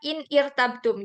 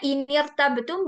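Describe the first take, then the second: First: The words stay apart and the i vowel sounds. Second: The words join and the i vowel drops. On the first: The speaker calls it wrong. "bukan in irtabtum gitu" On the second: The speaker calls it right. "jadinya inirtabetum"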